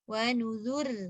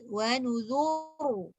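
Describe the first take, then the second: First: The r is pronounced light and thin. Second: The r is pronounced heavy and full. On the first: "bila dia baca dengan nipis tanpa ya" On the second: "Kalau tebal"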